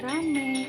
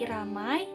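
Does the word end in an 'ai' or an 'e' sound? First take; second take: e; ai. First: The word ends with a plain e vowel. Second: The word ends with an ai diphthong. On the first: The speaker calls it wrong. "tapi jadi R A M E jadi rame" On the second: The speaker calls it right. "R A M A I ramai"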